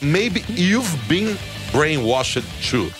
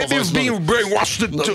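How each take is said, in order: First: The phrase is said slowly, with a hesitation. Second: The phrase is said quickly in one run.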